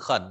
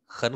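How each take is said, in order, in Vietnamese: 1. Âm tiết này mang thanh ba, giọng trầm uốn xuống. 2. Âm tiết này mang thanh hai, giọng đi lên. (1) "từ khẩn là rất" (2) "thanh ba trước thì đọc thành thanh hai"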